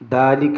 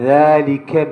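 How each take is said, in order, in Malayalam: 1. ആദ്യത്തെ വ്യഞ്ജനം സാധാരണ d ശബ്ദമാണ്. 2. ആദ്യത്തെ വ്യഞ്ജനം മൃദുവായ th ശബ്ദമാണ്. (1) "ദാലിക എന്നല്ല" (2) "ദ എന്നുള്ളത് രണ്ട് പല്ലിൻ്റെ ഇടയിൽ നിന്നാണ്"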